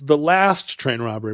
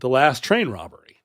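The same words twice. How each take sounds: First: The word last carries the main stress. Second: The word train carries the main stress. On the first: It is the final robbery of a train. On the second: It is the final train-robbery as a unit.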